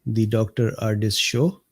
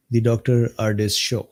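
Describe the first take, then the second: No difference in how they are said.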